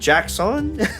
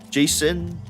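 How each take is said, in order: First: The name is said with a k sound. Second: The name is said without a k sound. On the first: The speaker calls it right. "say it like Jackson" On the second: The speaker calls it wrong. "I think that's how you say it"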